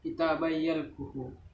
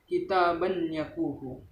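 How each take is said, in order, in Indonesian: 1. Bunyi n menyatu dengan bunyi y yang mengikutinya. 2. Bunyi n dibaca jelas sebelum y.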